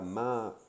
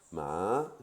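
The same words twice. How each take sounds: First: The word carries a plain, level tone. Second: The word carries a marked, non-level tone. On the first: It means to come. "intonation normale" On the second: It means dog. "avec une intonation différente"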